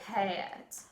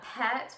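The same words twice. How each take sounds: First: The vowel glides into an added uh sound. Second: The vowel is plain, with no uh glide.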